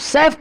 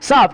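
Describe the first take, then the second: First: The vowel sounds like the 'a' in 'cat'. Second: The vowel sounds like the 'a' in 'father'. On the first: The speaker calls it wrong. "सैफ्ट नहीं" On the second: The speaker calls it right.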